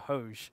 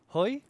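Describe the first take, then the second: First: The name is read out as it is spelled. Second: The name is said the native way. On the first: The speaker calls it wrong. "That's how I kind of read it" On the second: The speaker calls it right. "I've been corrected now, and it's Hoi"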